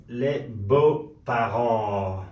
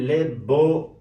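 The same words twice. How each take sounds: First: Les beaux parents stretched out very slowly, every syllable apart; very slow French demo. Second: Said in the usual way. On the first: Shown as a demonstration. Teacher stretching the French phrase so students can repeat it.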